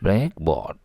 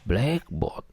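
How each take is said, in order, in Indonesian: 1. Tekanannya di bagian kedua. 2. Tekanannya di bagian pertama. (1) "hanya sekadar bermakna papan hitam saja" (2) "tekanannya di awal kata"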